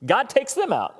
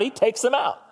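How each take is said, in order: First: Said in the usual way. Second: He hit with a punch; stress on he. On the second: Shown as a demonstration. Preacher stressing that he takes them out. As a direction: lean on the word he, then drop. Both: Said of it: "except for when he takes them out".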